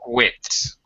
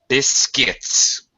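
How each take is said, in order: First: It is said with a W sound. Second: It is said without a W sound. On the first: The speaker calls it wrong. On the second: The speaker calls it right. "No W sound"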